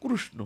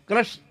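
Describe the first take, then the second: First: The name is said in an Odia way. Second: The name is clipped to a short 'krash'. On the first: "Orissa में कृष्ण को बोलते हैं" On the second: "Braj में ब्रजवासी लोग वैसे क्रश क्रश करते हैं"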